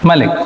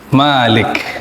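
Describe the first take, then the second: First: The first vowel is kept short. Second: The first vowel is held long. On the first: "Dibaca pendek" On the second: "Dengan kata ma panjang"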